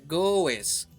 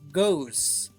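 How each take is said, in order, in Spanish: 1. Se dice una vocal extra antes de la s final. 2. Después de la vocal solo se dice el sonido s. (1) "No se pronuncia goes" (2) "Goes con la S nada más"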